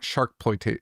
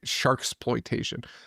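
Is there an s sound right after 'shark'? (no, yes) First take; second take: no; yes. First: No s sound follows shark in the word. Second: An s sound follows shark in the word. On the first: The speaker calls it wrong. "It's not Sharkploitation" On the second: The speaker calls it right. "There's an S in it"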